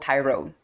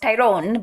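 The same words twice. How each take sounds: First: The name is said in a plain accent. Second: The name is said in an Italian accent.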